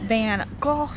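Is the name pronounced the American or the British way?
British. The name is pronounced in a British manner. "that's more the British way"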